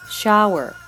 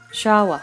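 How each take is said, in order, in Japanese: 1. 最後のRは舌を巻いて発音する。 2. 最後のRは舌を緩めて落とす。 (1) "舌を巻く" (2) "舌を緩める"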